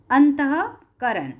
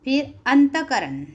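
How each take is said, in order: First: अंतःकरण slowed down, with a clear h after त, as अंतहकरण; visarga sounded as h. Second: अंतकरण said straight through with no h sound; without the visarga. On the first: Teacher to class, showing the visarga as h, slow and careful. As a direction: spell out अंतःकरण slowly, breathing the visarga as h. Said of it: "उसका pronunciation भी दिया है अंतःकरण". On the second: Teacher reads the word plainly before correcting it. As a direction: read अंतकरण as a plain first try, no breath after त. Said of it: "उसका pronunciation भी दिया है". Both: Shown as a demonstration.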